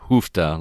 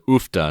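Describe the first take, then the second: First: The word starts with an H sound. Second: The word starts with a vowel, no H. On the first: The speaker calls it wrong. "not Hufta, like with an H" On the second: The speaker calls it right. "we always pronounce it Ufta"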